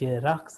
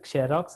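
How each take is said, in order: First: The word begins with a z sound. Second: The word begins with a ks sound. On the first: The speaker calls it right. "ನಾವು ಜೆರಾಕ್ಸ್ ಅಂತಂದ್ರೆ ಅಂತೀವಿ" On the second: The speaker calls it wrong. "ಅದು ಕ್ಸೆರಾಕ್ಸ್ ಅನ್ನಲ್ಲ"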